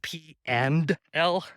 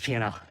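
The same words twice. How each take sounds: First: The D at the end of 'and' is pronounced. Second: The D at the end of 'and' is dropped. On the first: "if people would just pronounce the D in and, it would sound like" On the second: "everyone just says"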